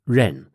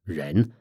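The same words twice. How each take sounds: First: The pitch falls sharply on the syllable. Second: The pitch rises on the syllable. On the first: "a fourth tone going down" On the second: "a second tone going up"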